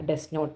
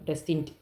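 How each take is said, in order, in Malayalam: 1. രണ്ട് വാക്കുകളും പൂർണ്ണമായി, വേറെ വേറെയായി പറയുന്നു. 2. രണ്ട് വാക്കുകളും ചുരുങ്ങി ഒരു ചെറിയ വാക്കായി പറയുന്നു.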